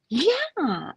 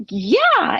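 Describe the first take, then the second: First: High, drawn-out bubbly imitation; real bubbly. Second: High, startled acceptance, imitating the neighbor; shocked. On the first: Neighbor saying yes to the fish, real bubbly. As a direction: bubble over with eager acceptance. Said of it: "real bubbly". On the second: Neighbor answering the offer of fish, acted shock. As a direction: act out a shocked, high-pitched reply. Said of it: "like, shocked".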